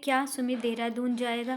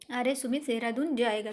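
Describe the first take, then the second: First: It is said as a question. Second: It is said with surprise.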